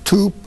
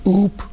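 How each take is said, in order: First: The first consonant is a t sound. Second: The first consonant is left out entirely. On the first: A later stage with an easier sound. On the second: An early stage of a child's speech.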